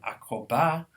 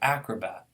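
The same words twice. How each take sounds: First: The stress is on the last syllable. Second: The stress is on the first syllable. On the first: The speaker calls it wrong. "a French speaker who always pronounced the last syllable as stress" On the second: The speaker calls it right. "instead of"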